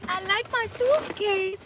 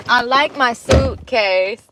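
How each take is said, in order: First: Put-on high, slow, soft Slovakian-accented child voice; a lightly voiced little boy with a Slovak accent, drawn out; Barron Trump impression. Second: Put-on slow, only faintly accented, near her own pitch; failed Barron retry. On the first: Quoting Barron's clip in a high, slow child accent. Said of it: "That's what he says. With his little, Slovakian". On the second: Retrying the Barron line, a weaker, slow half-accent. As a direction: try the accent again and miss it. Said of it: "I did it right the first time".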